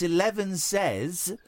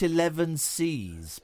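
First: The ending sounds like 'says'. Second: The ending sounds like 'sees'. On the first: The speaker calls it right. "it's 11 says" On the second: The speaker calls it wrong. "not 11 sees"

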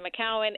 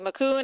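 First: The name ends with two syllables, 'cow-an'. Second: The name ends with a single 'coon' syllable. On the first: This is how the grower says it. The speaker calls it right. "I say McCowan. It is McCowan" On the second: This is how a customer says it. The speaker calls it wrong. "you say McCoon"

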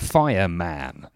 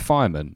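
First: The last syllable is a full 'man'. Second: The last syllable is a reduced 'mun'.

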